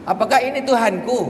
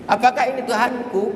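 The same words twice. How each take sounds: The two takes are said the same way.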